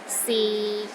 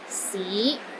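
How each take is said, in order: First: The pitch stays low and level. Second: The pitch rises from low to middle. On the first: It means is. "low and steady, but not as low as the fourth tone" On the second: It means city. "starts low, then rises to the middle of your range"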